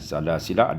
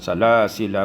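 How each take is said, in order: First: The final vowel is lengthened before stopping. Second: The final vowel is short, flowing on. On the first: The reciter stops after this word. "diwaqafkan ... dibaca dengan salasila ada alif" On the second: The reciter continues into the next word. "ketika wasal salasila itu bi fathil lam ... tanpa ada alif di situ"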